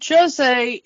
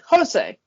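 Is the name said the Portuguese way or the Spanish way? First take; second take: Portuguese; Spanish. First: The name is said the Portuguese way. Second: The name is said the Spanish way. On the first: "Jose is the Portuguese pronunciation" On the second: "He speaks Spanish, and he would say Jose"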